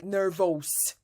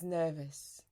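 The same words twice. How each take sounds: First: The last vowel is full and strongly pronounced. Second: The last vowel is a relaxed, weak schwa. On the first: The speaker calls it wrong. "read this in a very strong way, like nervous" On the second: The speaker calls it right. "that's the sound of schwa. It's not stressed. It's relaxed"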